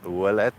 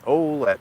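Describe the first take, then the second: First: The name is pronounced the French way. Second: The name is pronounced the local English way. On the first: "if you're French, you would pronounce it" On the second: "here in Windsor, we kind of have different ways of pronouncing things"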